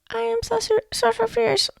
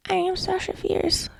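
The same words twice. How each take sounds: First: Unsure mock voice. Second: Timid affirmation. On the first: Mocking a [name] who doubts herself, high and hesitant. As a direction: squeak the name out unsure of yourself. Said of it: "No, she doesn't". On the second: Showing listeners the wrong, unconvinced way, soft and slow. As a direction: mumble the name with no conviction. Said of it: "you're not gonna be like". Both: Shown as a demonstration.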